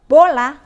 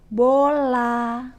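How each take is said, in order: First: The word is said in a louder voice. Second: The word is drawn out and lengthened. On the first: "kita menggunakan suara yang lebih keras untuk kata bola" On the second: "teknik perpanjangan"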